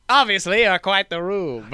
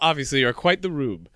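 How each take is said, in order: First: It is said in a put-on character voice. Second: It is said in a fairly normal voice.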